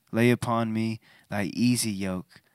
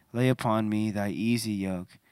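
No difference in how they are said.

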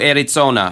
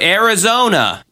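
First: Arizona is pronounced with German sounds. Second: Arizona is pronounced with English sounds. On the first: The speaker calls it right. "I would say it in the German way" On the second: The speaker calls it wrong. "I wouldn't say"

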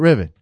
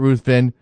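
First: The name is said like 'riven', without 'th'. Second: The name is said with 'ruth' and 'ven' sounds. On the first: This is how the friend says his name. "I think he pronounces it Riven" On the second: This is not how the friend says his name. "who doesn't pronounce it Ruthven"

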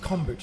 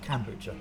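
First: The first syllable sounds like 'com'. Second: The first syllable sounds like 'can'. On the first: The speaker calls it right. "It's kombucha" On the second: The speaker calls it wrong. "not kombucha"

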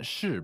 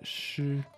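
First: The syllable is not said with a high level tone. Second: The syllable is said with a high level tone. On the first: It does not mean poetry. The speaker calls it wrong. "not 诗" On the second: It means poetry. The speaker calls it right. "but 诗. First tone, meaning poetry"

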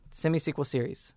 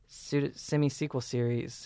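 First: The phrase is said very quickly. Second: The phrase is said at an ordinary pace.

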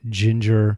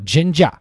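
First: It is said in the speaker's American accent. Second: It is said in an imitated Australian accent.

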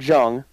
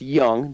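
First: The name begins with a J sound. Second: The name begins with a Y sound. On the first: The speaker calls it wrong. "not Jung" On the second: The speaker calls it right. "it's pronounced Young"

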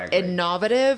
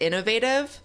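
First: It is said with a British pronunciation. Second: It is said with an American pronunciation. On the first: "how the British pronounced ... innovative" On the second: "opposed to innovative"

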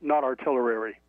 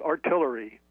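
First: The word is said with an extra syllable. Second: The word is said with its usual syllables. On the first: The speaker calls it wrong. "I just threw another whole syllable in there" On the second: The speaker calls it right. "we call it artillery"

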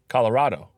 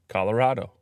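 The two takes are said the same way.

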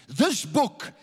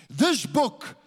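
Both takes have the same delivery.

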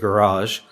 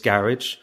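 First: It is said with an American pronunciation. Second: It is said with a British pronunciation.

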